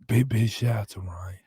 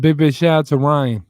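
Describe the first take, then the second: First: It is said in a quiet, subdued voice. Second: It is said in a normal speaking voice.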